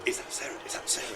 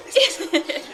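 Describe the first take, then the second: First: Breathless whispered asking; eager whisper. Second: Much higher and louder, laughing squeal; excited squeal. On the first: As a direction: whisper it, straining to hear. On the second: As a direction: burst out with delight. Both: Retold or imitated. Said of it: "Karen was literally going".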